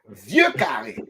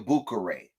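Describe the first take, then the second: First: The phrase begins with a V sound. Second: The phrase begins with a B sound. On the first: The speaker calls it right. "He start with a V" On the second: The speaker calls it wrong. "Where did you find the B?"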